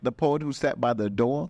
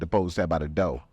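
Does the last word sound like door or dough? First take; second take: door; dough. First: The last word ends with a clear r sound. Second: The last word drops the r, like dough. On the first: "am I saying that right?" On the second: "because he's from Chicago, and so usually y'all be like"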